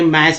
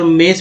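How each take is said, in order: First: The vowel is an open 'ae' sound. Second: The vowel is an 'e' sound. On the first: "मैस भी नहीं पढ़ेंगे" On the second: "मेस भी नहीं पढ़ेंगे"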